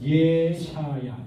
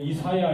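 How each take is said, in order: First: The name begins with a 'yeh' sound. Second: The name begins with an 'ee' sound. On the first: This is the Hebrew pronunciation. "히브리적인 발음은 하면" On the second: This is the usual Korean pronunciation. "우리는 그냥 이사야 이렇게 발음을 합니다만은"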